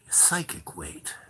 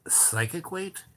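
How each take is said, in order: First: Eerie slow whisper. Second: Said in the usual way. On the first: Retold or imitated. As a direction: whisper it slowly, as the strange man. Retold strange man, whispered.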